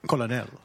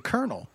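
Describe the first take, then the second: First: It is said in a French accent. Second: It is said in a plain American accent. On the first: The speaker calls it wrong. "so I do not say colonel" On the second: The speaker calls it right. "I have to take a half a beat and say colonel"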